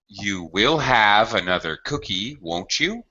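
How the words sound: The voice rises at the end of the tag. It is a polite offer. The speaker calls it right. "when we make these polite offers, it's always rising"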